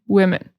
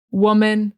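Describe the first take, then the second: First: "women" with a short "wi" first syllable; short i first vowel. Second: "Woman" with a rounded "wuh" first syllable; uh first vowel. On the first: Teacher contrasting plural "women" with "Woman". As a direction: start "women" with "wi". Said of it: "it's gonna start with wi". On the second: Teacher contrasting singular "Woman" with "women". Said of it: "the difference is really in the first syllable". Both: Shown as a demonstration.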